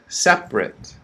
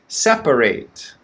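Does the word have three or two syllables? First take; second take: two; three. First: It is said with two syllables. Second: It is said with three syllables. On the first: It is an adjective. "Two syllables" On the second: It is a verb meaning to move things apart. "First one"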